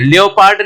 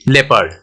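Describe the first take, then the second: First: An o vowel is sounded in the first part. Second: No o vowel is sounded in the first part. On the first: The speaker calls it wrong. "लियोपार्ड नहीं बोलते हैं" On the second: The speaker calls it right. "हम क्या बोलते हैं? ... ओ क्या हो गया? साइलेंट"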